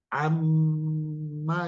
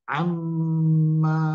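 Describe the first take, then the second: First: The m is held nasally, then a short vowel. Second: The final vowel is drawn out long. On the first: The speaker calls it right. "Ma-nya ini pendek, tapi dia bertasdid" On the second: The speaker calls it wrong. "ma-nya kepanjangan, salah"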